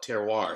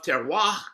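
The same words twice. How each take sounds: First: It is said the American way, with a final R. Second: It is said the French way, without a strong final R. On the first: "we generally put the R on" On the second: "as Jose is pronouncing it"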